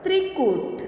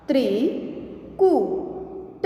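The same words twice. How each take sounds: First: Said in the usual way. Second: Slow, each sound drawn out, rising at the end; slow drawn-out reading. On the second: Shown as a demonstration. Teacher slowly sounding out a word for students, drawn out. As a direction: stretch the word slowly for the class. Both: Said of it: "आगे देखें".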